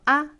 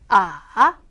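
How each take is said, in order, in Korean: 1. 자기 성조 없이 가볍게 발음해요. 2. 음이 낮아요. 내려갔다가 올라가요. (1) "가볍게 발음하시면 됩니다" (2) "내려왔다가 올라가는 음"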